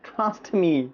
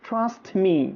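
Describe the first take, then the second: Both takes have the same delivery.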